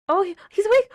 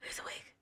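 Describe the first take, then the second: First: High, loud shout of disbelief; excited shout. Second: Breathless whisper of disbelief. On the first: Watching the character wake up, shouting high and loud. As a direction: yell it out in shock. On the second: Still reeling at the character waking, a stunned whisper. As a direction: hush it, stunned. Hushed disbelief after shouting. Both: Real, not acted.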